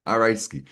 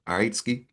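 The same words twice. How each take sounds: First: "All right, Ski." stated with a falling end; settled statement. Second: "All right, Ski?" asked with a rising end; questioning tune. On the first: Answering himself, settles with a fall. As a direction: drop "Ski." down to close it off. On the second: Checking in with Ski, ends on a rise. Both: Shown as a demonstration.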